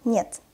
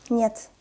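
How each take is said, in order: First: Careful "Нет"; slow reading. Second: Quick "Нет"; fast reading. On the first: Teacher models the word for beginners, "Нет" read slowly. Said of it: "I will read this word slowly". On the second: Teacher reads as a native speaker, "Нет" said fast. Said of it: "I will read this word fast". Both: Shown as a demonstration.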